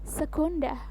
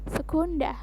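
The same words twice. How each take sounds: The two takes are said the same way.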